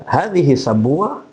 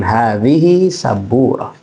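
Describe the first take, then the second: First: "hadhihi sabura" rising at the end; quicker, questioning tune on "hadhihi sabura"; question intonation. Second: "hadhihi sabura" slow, falling at the end; slow informative tune on "hadhihi sabura"; statement intonation. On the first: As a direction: ask "hadhihi sabura" with a lifted last word. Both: Shown as a demonstration.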